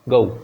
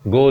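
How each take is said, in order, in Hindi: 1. स्वर श्वा से oo की ओर सरकता है। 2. स्वर एक सादा, स्थिर o ध्वनि है। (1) "उल्टा ई लिखा हुआ है, फिर ऊ साउंड है" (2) "हम यूजुअली क्या बोलते हैं"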